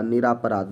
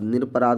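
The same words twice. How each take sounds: First: निरापराध with a long आ after निर; wrong form निरापराध, long "raa" in the middle; misspelled form read out. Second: निरपराध with a short र after निर; correct form. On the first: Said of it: "निरपराध होता है इसका शुद्ध शब्द". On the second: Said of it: "होता है इसका शुद्ध शब्द". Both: Shown as a demonstration.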